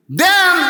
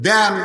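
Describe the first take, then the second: First: High, ringing one-word cry; bold shouted demand. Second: Said in the usual way. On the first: Acted. Small Hosain accepting the Koran from his father, bold shout. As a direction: fling the word out high and strong.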